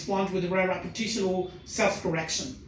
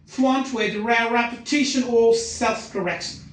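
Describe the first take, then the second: First: Said in the usual way. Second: Key words of "fluent with rare repetition or self-correction" punched higher and louder; sentence stress. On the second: Shown as a demonstration. Teacher demonstrates sentence stress, key words punched. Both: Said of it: "So this is a sentence stress".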